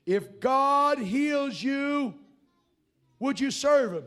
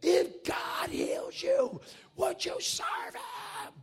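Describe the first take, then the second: First: Loud, slow, drawn-out yell. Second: Much higher, strained scream, very slow. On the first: Preacher yelling a question at a deaf man, loud and slow. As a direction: shout it so a nearly deaf man can hear. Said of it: "I'm yelling at him". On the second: Preacher screaming the question again at the deaf man, high and strained. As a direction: scream every word as if he can't hear you. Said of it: "I'm screaming at him". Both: Retold or imitated.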